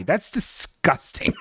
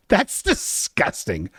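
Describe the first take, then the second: First: Mock disgust. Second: Soft, slow, laughing through it; laughing disgust. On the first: Reacting to a follower's joke name, soft slow mock disgust. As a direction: murmur it in mock revulsion. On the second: Reacting again to the follower's name, laughing mock disgust. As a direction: giggle out the disgust. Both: Shown as a demonstration. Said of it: "Very funny".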